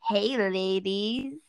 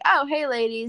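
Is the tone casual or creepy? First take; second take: creepy; casual. First: It is said in a slow, creepy way. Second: It is said in a light, casual way.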